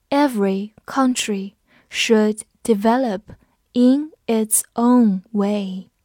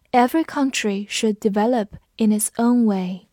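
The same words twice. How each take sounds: First: Slow, careful, word by word; slow reading. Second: Said in the usual way. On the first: Shown as a demonstration. Teacher reading the sentence slowly for students. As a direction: read it slowly for learners. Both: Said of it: "我们慢读一遍".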